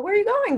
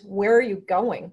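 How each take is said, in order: First: It is asked lightly, with a rising, curious tune. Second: It is asked firmly, with a falling, stern tune. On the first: The asker is simply interested. "the up is a little less um, threatening" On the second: The listener is in trouble. "You're in trouble with that"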